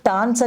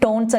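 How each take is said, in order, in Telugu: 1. ఈ అచ్చు 'father' లోని 'a' లాగా ఉంటుంది. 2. ఈ అచ్చు 'tone' లోని 'o' లాగా ఉంటుంది. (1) "లేకపోతే టాన్స్ అని కూడా అంటారు" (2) "కొంతమంది టోన్స్ అని కూడా అంటారు"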